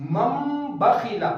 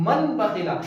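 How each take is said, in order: First: مم بخیلا slow, with the نون turned into a held میم; meem instead of noon. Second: من بخیلا with the نون clearly sounded; wrong, with noon. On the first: Teacher demonstrating iqlab on the example, slow. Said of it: "نون کی آواز کو silent کر دیں گے". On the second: Teacher showing the wrong sound before correcting, plain. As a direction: say من بخیلا keeping the نون audible. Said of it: "یہاں پر نون کی آواز آ رہی ہے لیکن یہ نہیں آنی چاہیے". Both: Shown as a demonstration.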